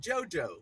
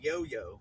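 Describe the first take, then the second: First: The name begins with a J sound. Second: The name begins with a Y sound. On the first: This is the family's own way of saying it. "We would call him Jojo" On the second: This is how a Spanish speaker says it. "my wife's mother can't pronounce the J"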